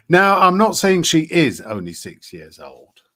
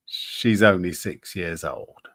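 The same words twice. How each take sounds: First: Higher, louder, leaning on "is"; emphatic disclaimer. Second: Said in the usual way. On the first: Real, not acted. Streamer hedging a claim about a child's age, emphatic disclaimer. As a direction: stress "is" firmly, as a caveat.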